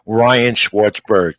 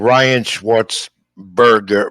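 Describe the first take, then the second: First: The surname ends with the sound 'berg'. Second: The surname ends with the sound 'burger'. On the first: The speaker calls it right. "Berg, Berg" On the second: The speaker calls it wrong. "not Burger"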